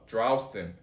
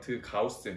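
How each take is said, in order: First: The r is made with the tongue tip. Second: The r is made in the throat, like g. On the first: "이렇게 R 발음으로 했죠" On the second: "기역 소리처럼 드가우센 이렇게"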